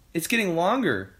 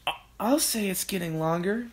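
First: Put-on high, lively boy's voice; young George. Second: High, thin character voice; Missus Cranky. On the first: George answering about the neck, high boyish voice. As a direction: report it with surprise, falling at the end. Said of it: "George said". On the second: Missus Cranky agreeing about the neck, high stammering voice. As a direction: stammer the start, then rise in disbelief. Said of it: "Missus Cranky said". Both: A narrator's reading.

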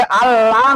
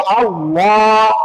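First: Said in the usual way. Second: আল্লাহ with a heavy, rounded লা held long; thick pronunciation. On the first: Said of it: "আল্লাহ না পড়ে". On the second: Shown as a demonstration. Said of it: "মোটা করে যদি পড়ি". (আল্লাহ-র লা মোটা করে টেনে পড়া)

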